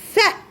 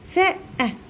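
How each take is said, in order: First: The consonant and the vowel are blended quickly together. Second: The consonant and the vowel are said separately. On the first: The speaker calls it right. "اقولها اسرع" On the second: The speaker calls it wrong. "ما اقولش فاء أه فاء أه"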